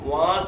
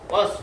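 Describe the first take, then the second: First: The vowel is drawn out long. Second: The vowel is kept short. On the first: The speaker calls it wrong. "വാസ് എന്ന് വായിക്കരുത്" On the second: The speaker calls it right. "വാസം നീട്ടത്തില്ല"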